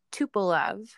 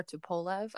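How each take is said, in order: First: Tupolev with a short, light middle syllable; first pronunciation. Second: Tupolev with a long O in the middle; alternative pronunciation. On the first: Naming the Soviet aircraft for the co-host, first pronunciation. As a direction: say Tupolev as TOO-puh-lev. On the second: Correcting the aircraft's name for the co-host, alternative pronunciation. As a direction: say Tupolev as too-POH-lev. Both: Shown as a demonstration. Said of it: "or Tupolev".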